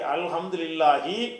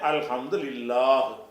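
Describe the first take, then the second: First: The word ends with a short final vowel. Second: The word ends on a consonant, no final vowel. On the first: The reader continues into the next words. "இந்த ரபில் ஆலமீன் சேர்த்தா தான் அப்படி படிக்கணும்" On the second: The reader stops after this word. "இதில் தான் முடிக்கணும்"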